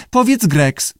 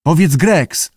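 First: High-pitched lizard echo; high talking-lizard repeat; lizard parroting. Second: Lightly raised prompt to a pupil; keeper prompting. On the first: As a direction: parrot it back in a high creature voice. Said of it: "powtórzył jaszczur". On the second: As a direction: coax a word out, testing. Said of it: "spróbował". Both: A narrator's reading.

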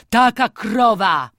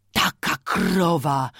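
First: Louder, wailing repeat with TAKA stressed; anguished lament, louder on TAKA. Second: Lamenting. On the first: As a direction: cry it out in grief for the cow. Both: A narrator's reading. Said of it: "wyrzekał coraz żałośniej".

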